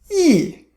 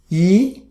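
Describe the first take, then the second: First: The pitch falls sharply from high. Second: The pitch rises from mid to high. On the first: "Fourth tone" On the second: "The second tone"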